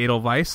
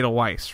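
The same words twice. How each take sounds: First: The second part starts with a V sound. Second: The second part starts with a W sound. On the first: It is said the German way. The speaker calls it right. "like I'm a German" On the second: It is said the English way. The speaker calls it wrong. "I can't say Edelweiss"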